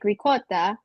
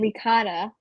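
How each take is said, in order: First: It is said with an Italian pronunciation. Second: It is said with an Americanized pronunciation. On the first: The speaker calls it right. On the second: The speaker calls it wrong.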